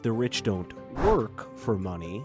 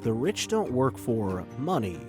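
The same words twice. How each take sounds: First: The stress falls on the word work. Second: The stress falls on the word money. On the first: The rich do not work at all. The speaker calls it wrong. "Instead of reading it as" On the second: The rich do not work in order to earn money. The speaker calls it right. "By emphasizing the word money"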